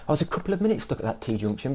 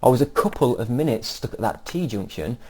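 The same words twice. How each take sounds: First: Cup and tea are stressed lightly and naturally. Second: Cup and tea are stressed heavily and obviously. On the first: The speaker calls it right. "just make it sound natural" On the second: The speaker calls it wrong. "Now don't make it as obvious that"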